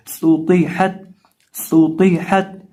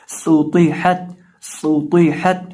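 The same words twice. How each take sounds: First: सूतीहत with a whistled सीन and a full, heavy तौ; model reading. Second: सूतीहत slowly, with a whistled सीन and a heavy तौ; model reading. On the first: Teacher to students, repeating the word. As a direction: say सूतीहत with a sharp hiss and a thick t. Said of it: "सीन के अंदर हमने सीटी निकालनी है". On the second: Teacher to students, modelling the word slowly. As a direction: stretch सूतीहत, hissing the स. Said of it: "तो इसकी आवाज़ आएगी". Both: Shown as a demonstration.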